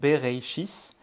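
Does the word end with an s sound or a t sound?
s sound. The word ends with an s sound. "avec la prononciation ashkénaze, ils écrivent un S à la place"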